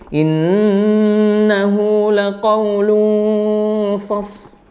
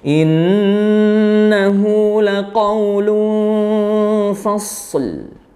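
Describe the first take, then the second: First: Only the s is heard; the final l is dropped. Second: The s is held, then a final l is heard. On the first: The speaker calls it wrong. "lamnya tidak ada suara sama sekali... Hanya shadnya saja yang dominan. Lamnya dihilangkan, itu juga kurang tepat" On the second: The speaker calls it right. "alirkan dulu ya huruf yang sukun sebelum huruf terakhir, baru ke huruf terakhirnya"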